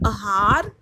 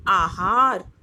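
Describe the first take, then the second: First: आहार with short first vowel, like ahaar; आहार opening with a short a; wrong spelling said. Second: आहार with long first aa; आहार opening with a long aa; correct spelling said. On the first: (आहार पहला स्वर छोटा अ) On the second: (आहार पहला स्वर लंबा आ) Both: Shown as a demonstration. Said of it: "कुछ अशुद्ध शब्द हैं और कुछ शुद्ध शब्द हैं".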